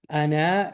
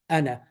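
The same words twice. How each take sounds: First: The final vowel is drawn out long. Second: The final vowel is short and quick. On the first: The speaker calls it wrong. "it does not pronounce like this" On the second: The speaker calls it right. "just very quickly. Okay, just two short syllables"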